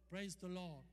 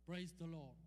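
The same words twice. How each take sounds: The two takes are said the same way.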